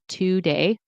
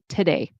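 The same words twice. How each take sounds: First: The first syllable has a full 'two' vowel. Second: The first syllable is reduced to a weak 'tuh'. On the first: The speaker calls it wrong. "we don't say today" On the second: The speaker calls it right. "we say today. T, unstressed"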